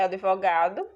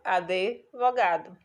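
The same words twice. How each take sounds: First: The d and v are joined with no vowel. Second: An extra vowel sound splits d and v. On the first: This is the formal standard form. "A forma culta" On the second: This is the everyday spoken variant. "a forma variante"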